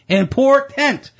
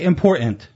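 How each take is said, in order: First: The middle T sound is clearly pronounced. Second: The middle T sound is dropped. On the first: The speaker calls it right. "There is a T in important" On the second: The speaker calls it wrong. "we've taken the letter T out of words"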